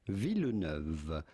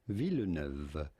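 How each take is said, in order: Both takes have the same delivery.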